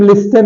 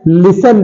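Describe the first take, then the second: First: "लिस्टन" with the T sounded; wrong pronunciation. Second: "लिसन" with silent T; correct pronunciation. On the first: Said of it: "इसे हम लिस्टन नहीं पढ़ते हैं". ("लिस्टन" में टी बोलकर) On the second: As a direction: say "लिसन", S straight into the ending. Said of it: "लिसन पढ़ते हैं". ("लिसन" में टी साइलेंट रखकर) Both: Shown as a demonstration.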